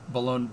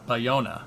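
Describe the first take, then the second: First: The middle consonant is an L sound. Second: The middle consonant is a Y sound.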